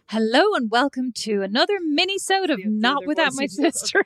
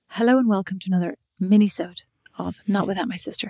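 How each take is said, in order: First: It is said in a livelier, more animated voice. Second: It is said in a calm, even voice. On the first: "be a little bit more animated" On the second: "with that very calm voice"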